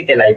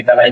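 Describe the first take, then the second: First: तेलाई with an 'e' vowel in the first syllable, te-laai; regional pronunciation variant. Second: तलाई with a short 'a' in the first syllable, ta-laai; local pronunciation variant. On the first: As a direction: say तेलाई, opening on 'te', not 'ta'. (तेलाई, पहले अक्षर में 'ते' का उच्चारण) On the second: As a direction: say तलाई, opening on 'ta', not 'te'. (तलाई, पहले अक्षर में 'त' का उच्चारण) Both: Shown as a demonstration. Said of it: "बोलने में अलग हो जाता है".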